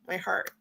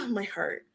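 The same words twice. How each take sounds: First: Said in the usual way. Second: A real sigh, then My heart said moved; emotional sigh. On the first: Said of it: "Sorry, I'm just, I'm a very emotional woman". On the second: Real, not acted. Vlogger moved to tears by Martha's message, sighing. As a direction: sigh and let my heart come out choked up. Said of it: "I'm a very emotional woman".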